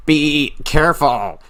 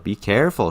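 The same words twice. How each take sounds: First: High, slow exasperated scolding; imitated motherly scolding, pitched up and stretched; frustrated mother. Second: Understated caution from a loving mom; mild, caring warning in an everyday voice; tender motherly warning. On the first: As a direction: draw it out like a fed-up mom. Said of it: "but there's also frustration". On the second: Retold or imitated. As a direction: gently warn a child, imitating the mother. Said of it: "She's wanting to warn her child".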